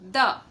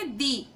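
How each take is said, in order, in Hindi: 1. इस शब्द का अंत छोटे 'uh' स्वर से होता है। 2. इस शब्द का अंत लंबे 'ee' स्वर से होता है। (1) "कॉन्सोनेंट से जब कोई वर्ड शुरू होता है तो हम हमेशा इसे प्रोनाउंस करते हैं" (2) "वॉवेल से होता शुरू तो उसे हम पढ़ते"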